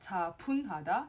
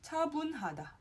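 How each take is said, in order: First: The second syllable starts with a p sound. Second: The second syllable starts with a b sound. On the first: The speaker calls it wrong. "not 차분하다" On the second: The speaker calls it right. "차분하다, bun"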